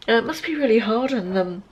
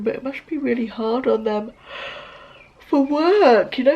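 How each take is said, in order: First: Said in the usual way. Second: Yawning. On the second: Real, not acted. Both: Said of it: "excuse me yawning".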